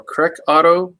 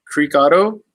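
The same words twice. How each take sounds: First: "Creek" pronounced KREK, the vowel short. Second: "Creek" pronounced KREEK, tentatively offered; "Creek" with long ee. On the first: Offering another guess at a business name, "Creek" said as "creck". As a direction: say "Creek" as "creck", rhyming with neck. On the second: Reading a business name he can't pronounce, "Creek" with long ee. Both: Shown as a demonstration. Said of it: "don't know how to pronounce that".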